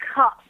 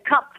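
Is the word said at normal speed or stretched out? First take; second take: stretched; normal. First: The word is stretched with its consonants clearly sounded. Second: The word is said quickly and normally. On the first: "where she'd stretch out and enunciate the hard consonants" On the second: "cup the regular way"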